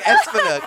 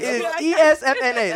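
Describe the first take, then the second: First: The name is said as one blended word. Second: Each letter of the name is said separately. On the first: The speaker calls it wrong. "There is no such thing" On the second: The speaker calls it right. "It's letters"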